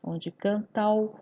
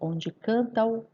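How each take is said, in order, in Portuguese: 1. As vogais finais de canta e o se juntam. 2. As vogais finais de canta e o se juntam.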